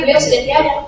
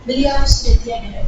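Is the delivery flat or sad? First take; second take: flat; sad. First: It is said flatly, with no emotion. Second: It is said sadly, with deep feeling. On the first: The speaker calls it wrong. "ngomong-ngomong biasa saja" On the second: The speaker calls it right. "Itu kan lebih dapat feel-nya"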